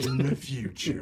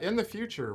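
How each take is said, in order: First: It is said in a dramatic movie-trailer voice. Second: It is read in a plain voice.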